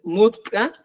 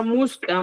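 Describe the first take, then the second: First: "mutca" with a t before k; correct pronunciation. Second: "musca" with an s before k; Cusco pronunciation. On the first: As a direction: say "mutca" as mut-ka, stopped t. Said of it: "La correcta es mutca". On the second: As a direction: say "musca" as mus-ka. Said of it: "en Cusco, dicen musca". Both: Shown as a demonstration.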